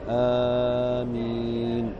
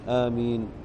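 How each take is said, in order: First: Both vowels of the word are drawn out long. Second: Neither vowel is drawn out; both stay short. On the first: "بمد الهمزة والميم" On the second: "بتخفيف الهمزة والميم"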